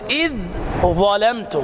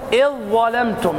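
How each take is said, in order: First: The dh is pronounced separately before the consonant. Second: The dh merges into a doubled following consonant. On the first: The speaker calls it wrong. "لا تقل ... خطأ إدغام" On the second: The speaker calls it right. "الحرف الثاني مشدد"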